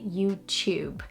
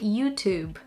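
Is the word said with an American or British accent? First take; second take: British; American. First: The u sounds like you, with a y. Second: The u sounds like oo, without a y. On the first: "And British English, we say YouTube" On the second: "In American English, you would say YouTube"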